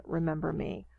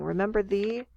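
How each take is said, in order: First: Said in the usual way. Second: "Remember thee" with a questioning rise at the end. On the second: Retold or imitated. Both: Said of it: "So he's questioning".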